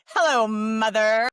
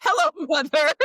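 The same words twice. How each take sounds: First: Slow, louder, drawn-out timid greeting; Buster Bluth voice. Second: Higher, louder sinister villain greeting. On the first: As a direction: draw it out like an awkward grown son. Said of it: "now I sound like Buster Bluth". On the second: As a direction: say it like a scheming villain. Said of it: "which sounds like a villain or something". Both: Retold or imitated.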